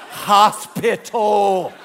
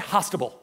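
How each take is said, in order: First: The word is said with the p sound. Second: The word is said without the p sound. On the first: The standard pronunciation of the word. The speaker calls it right. "It's hospital" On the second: A small child's mispronunciation of the word. The speaker calls it wrong. "could not say the word hospital. So you would just say hostable"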